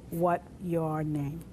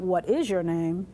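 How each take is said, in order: First: Dropped is. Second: Said in the usual way. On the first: Shown as a demonstration. Teacher showing the sign-order version of the question, slowly. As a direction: leave out is and take it slowly. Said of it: "It's just". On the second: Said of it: "It's not".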